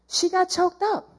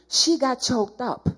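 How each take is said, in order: First: Emphatic repeat. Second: Said in the usual way. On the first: Shown as a demonstration. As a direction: repeat it higher, leaning on choked up.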